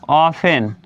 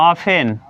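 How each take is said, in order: Both takes have the same delivery.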